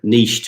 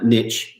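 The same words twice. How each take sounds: First: It is said in a non-American pronunciation. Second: It is said in an American pronunciation.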